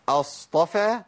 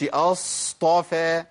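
First: أصطفى with the ص held only its natural length; measured, correct ص in أصطفى; زمن طبيعي. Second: أصطفى with an overlong ص; زيادة الزمن. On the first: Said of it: "زمن جريان الصوت الطبيعي". (أصطفى دون إطالة الصاد) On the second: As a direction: drag out the s of أصطفى before the ط. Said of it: "زودت الزمن". (أصطفى بصاد ممدودة خطأً) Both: Shown as a demonstration.

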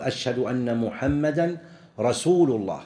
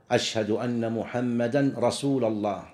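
First: "رسول" ending in -u, "rasūlu llāh"; correct case ending. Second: "رسول" ending in -a, "rasūla llāh"; wrong case ending. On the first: Teacher giving the correct testimony, "رسول" said "rasūlu". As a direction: put a damma on "رسول": rasūlu. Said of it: "يعني الصحابة يقول". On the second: Teacher quoting the faulty call to prayer, "رسول" said "rasūla". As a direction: put a fatha on "رسول": rasūla. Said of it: "هذا خطأ". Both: Shown as a demonstration.

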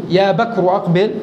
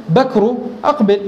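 First: Said in the usual way. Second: بكر أقبل called out directly, with no particle before بكر; vocative without يا. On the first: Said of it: "بدلا من أن أقول". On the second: Shown as a demonstration. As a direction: drop يا and call out بكر أقبل. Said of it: "أقول".

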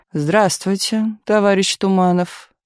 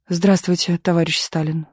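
First: Slow, drawn-out leader's greeting; Stalin's greeting. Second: Said in the usual way. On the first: A narrator's reading. Stalin greets the writer who approached, slow and measured. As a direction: greet him slowly, weighing each word.

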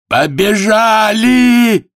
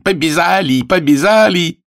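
First: High, loud, long-drawn cry; desperate shout. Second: High, repeated excited cry; boy's shout. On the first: Voice from the carousel as the race starts, desperate shout. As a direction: scream it out and hold it. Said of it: "Отчаянный голос". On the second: Greek imp of a boy dancing on the fence, shouting high. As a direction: yell it high, quicker and bouncing. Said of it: "кричит". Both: Acted.

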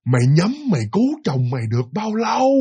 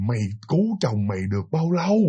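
First: Drawn-out sneer. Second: Contemptuous ghost. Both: Retold or imitated. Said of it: "nói mà khinh khỉnh mà khinh bỉ".

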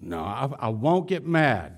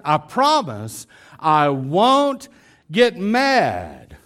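First: Said in the usual way. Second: Slow, drawn-out stress on "promise" and "won't"; wife over-earnestly swearing "I won't get mad"; emphatic promise. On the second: Acted. Acted wife promising with exaggerated emphasis.

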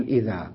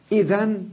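First: إذا stopped on a long vowel; pausal alif. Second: إذن with its n ending; with tanwin. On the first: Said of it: "تقول إذا". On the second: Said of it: "بالتنوين". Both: Shown as a demonstration.

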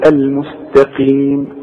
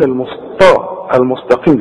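First: "المستقيم" with thin t and long final ee; light ta. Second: "المستقيم" with thick ṭa for light ta; wrong heavy ta. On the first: Shown as a demonstration. Teacher gives the correction, light t in "المستقيم". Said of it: "إذا هقول". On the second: Retold or imitated. Teacher challenges the mistake, heavy ṭ in "المستقيم". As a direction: mimic the error, heavy ṭ in "المستقيم". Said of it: "أمال بتقول".

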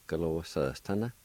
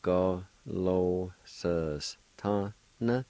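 First: Said in the usual way. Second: Slow model. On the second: Shown as a demonstration. Teacher modelling Go lo sus tana slowly for learners. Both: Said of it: "It's pronounced like this".

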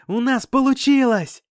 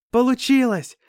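First: High, loud triumphant yell; joyful shout. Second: High, loud cry of triumph; joyful shout. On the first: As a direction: shout the good news to everyone. (ликующий, громкий крик) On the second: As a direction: yell out the victory. (радостный крик) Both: Acted. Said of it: "с криками".

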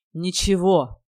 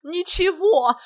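First: Tight, restrained anger; seething. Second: High, loud mocking whoop; gleeful clownish yell. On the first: Hero answers the teasing friend, barely contained anger. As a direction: push it out, about to explode. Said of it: "процедил Кирилл, готовый вот-вот взорваться". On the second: Silly guest echoes the hero, high loud gleeful yell. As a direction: crow it loudly, on the edge of laughter. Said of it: "Иван хохотал так громко". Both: A narrator's reading.

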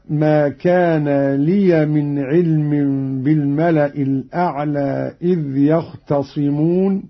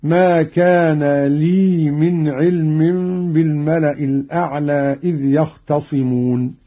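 First: لي said "liya" before the next word; open ya. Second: لي said as long "lii"; no vowel after the y in لي; silent ya. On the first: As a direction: sound a short a after the y in لي. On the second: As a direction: recite لي as one drawn syllable, lii. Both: Shown as a demonstration. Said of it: "بإسكان اللام من".

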